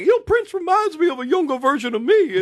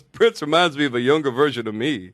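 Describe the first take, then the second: First: High, loud, excited mock boast. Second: Louder deadpan parody of a boast. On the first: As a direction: gush it high and loud, full of self-promotion. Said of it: "He's like". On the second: Retold or imitated. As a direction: repeat the boast to camera, pitched down. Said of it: "[name] looks at the camera and goes".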